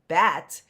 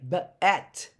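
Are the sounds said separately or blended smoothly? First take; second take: blended; separately. First: The sounds run together in one smooth word. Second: The sounds are said separately with breaks. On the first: The speaker calls it right. "when we blend them together" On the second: The speaker calls it wrong. "we don't say bet"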